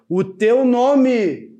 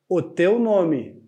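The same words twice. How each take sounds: First: It is said in a louder, raised voice. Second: It is said in a quieter voice.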